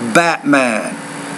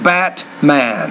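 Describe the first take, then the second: First: The middle T is replaced by a glottal stop. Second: The middle T is released as a full T. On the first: "I'm saying Batman" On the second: "You're saying Batman"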